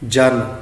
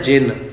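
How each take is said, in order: First: The vowel after 'j' is a short 'a'. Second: The vowel after 'j' is a short 'i'. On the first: The speaker calls it wrong. "जन पढ़ देने" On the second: The speaker calls it right. "शब्द है जिन"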